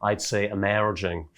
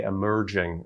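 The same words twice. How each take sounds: First: Slow "emerging" with an open "eh" and rolled r; Scottish emerging. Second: "emerging" with a short first vowel, East Coast style; wrong emerging. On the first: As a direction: give "emerging" a West Coast Scottish lilt. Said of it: "a very significant Scottish difference". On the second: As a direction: say "emerging" the way he was corrected for. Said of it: "he corrected my impression of him". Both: Retold or imitated.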